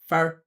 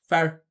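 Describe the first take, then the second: First: The vowel is reduced, sounding like 'fer'. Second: The vowel is reduced, sounding like 'fer'.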